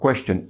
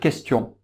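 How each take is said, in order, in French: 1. Il est prononcé avec un accent anglais. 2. Il est prononcé avec un accent français. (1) "les Anglais, c'est différent" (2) "En français, on a la lettre K et la lettre Q. Les deux sont prononcés de la même façon"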